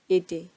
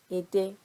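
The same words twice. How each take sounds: First: The last syllable is on a low tone. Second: The last syllable is on a high tone. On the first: It means language. "the low intonation" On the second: It means shrimp. "the last E in ede is leaning towards the right"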